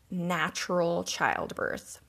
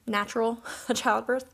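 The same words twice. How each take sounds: First: Put-on slow, wry quote-unquote natural childbirth; drawn-out skeptical "natural childbirth"; ironic air quotes. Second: Put-on "natural" then a laugh before "childbirth"; amused dismissive "natural childbirth"; laughing at the term. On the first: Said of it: "quote-unquote". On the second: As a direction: laugh off the word "natural" mid-phrase. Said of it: "I really don't like that term".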